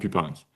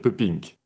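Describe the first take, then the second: First: The name is pronounced as a French name. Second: The name is pronounced as a Flemish name. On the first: This is the usual pronunciation in France. "en France, on le prononce souvent Pupinck" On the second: This is the name's original pronunciation. "le nom est fait pour être prononcé comme un nom flamand"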